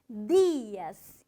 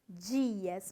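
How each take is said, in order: First: It is said with Spanish pronunciation. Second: It is said with Brazilian Portuguese pronunciation. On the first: The speaker calls it right. "dias e não" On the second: The speaker calls it wrong. "não dias"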